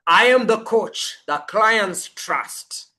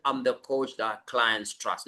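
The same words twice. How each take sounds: First: Said with conviction. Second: Quiet and lower, no conviction; tossed off softly, without belief; weak half-hearted version. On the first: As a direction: claim every word as your identity. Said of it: "No, it's". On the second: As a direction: mumble it like you don't believe it. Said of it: "So you're not just saying". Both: Shown as a demonstration.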